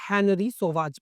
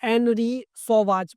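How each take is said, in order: First: The name starts with an H sound. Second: The name starts without an H sound.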